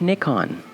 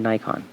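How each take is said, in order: First: It is said with a British pronunciation. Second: It is said with an American pronunciation.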